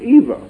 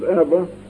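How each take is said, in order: First: The name does not rhyme with Emma. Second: The name rhymes with Emma. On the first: This is the usual pronunciation of the name. "most people whose name is E.V.A. pronounce their name Eva" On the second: The name was made to match a twin sister's name. "pronounced it Eva, to rhyme with her twin sister"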